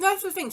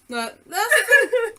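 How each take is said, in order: First: Talking through a mouthful of biscuit; mouth full. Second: Breaking into laughter mid-line; laughing. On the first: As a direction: say it round a bite of food. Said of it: "Sorry, I've got a mouthful of biscuit". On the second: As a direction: laugh through the words. Laughing while interrupting. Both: Real, not acted.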